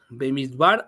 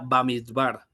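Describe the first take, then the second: First: The first vowel sounds like 'e'. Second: The first vowel sounds like 'a'. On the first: "se llama Bemidbar" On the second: "se pronuncia Bamidbar"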